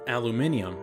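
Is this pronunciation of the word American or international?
international. The word is said the international way. "I use the international pronunciation"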